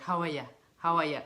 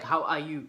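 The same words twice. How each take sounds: First: "How are ya" with "ya" short and loose, like a quick hi; Irish "how are ya". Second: Said in the usual way. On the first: Retold or imitated. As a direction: toss off "How are ya" as a casual Irish greeting. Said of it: "It's not like, "How are you?". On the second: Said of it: "It's not like".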